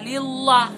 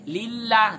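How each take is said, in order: First: The l in Allah sounds thick and heavy. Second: The l in Allah sounds thin and light. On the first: The speaker calls it wrong. "tidak mungkin bacaannya lillah" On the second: The speaker calls it right. "didahului oleh huruf yang berharkat kasroh maka bacaannya tipis"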